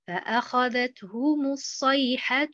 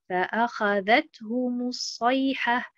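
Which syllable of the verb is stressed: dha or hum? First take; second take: hum; dha. First: The stress falls on the hum syllable. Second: The stress falls on the dha syllable. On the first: The speaker calls it wrong. "En mettant l'accent sur harakat al-ha" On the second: The speaker calls it right. "en plaçant l'accentuation sur harakat al-dhal"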